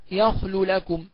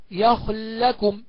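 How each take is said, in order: First: يخل لكم said yakhlu lakum, two separate l sounds; clear unmerged lam. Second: يخل لكم joined on one long l; slow held l in يخل لكم; merged lam. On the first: Teacher shows the clear reading, يخل لكم unmerged. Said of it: "والإظهار معروف". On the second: Teacher demonstrates merging, doubled l in يخل لكم. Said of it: "الإدغام هكذا". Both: Shown as a demonstration.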